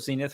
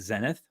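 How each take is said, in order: First: It is said with an American pronunciation. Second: It is said with a non-American pronunciation.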